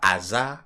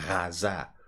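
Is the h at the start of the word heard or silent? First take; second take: silent; heard. First: The starting h is silent. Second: The starting h is breathed out audibly. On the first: The speaker calls it wrong. "vous ne prononcez pas hasard" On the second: The speaker calls it right. "vous prononcez hasard pour retrouver le son R"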